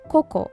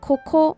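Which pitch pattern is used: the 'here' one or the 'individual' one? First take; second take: individual; here. First: Said with the pitch accent of 'individual'. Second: Said with the pitch accent of the word 'here'. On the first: It means 'individual, one by one'. "individual, one by one っていう意味がある言葉" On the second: It means 'here'. "英語でhere という言葉"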